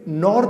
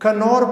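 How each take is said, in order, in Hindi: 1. शुरू वाला K sound silent है। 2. शुरू वाला K साउंड बोला जाता है। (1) "आप के को साइलेंट करके पढ़ें" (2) "इसे नॉर नहीं कनौर पढ़ते हैं"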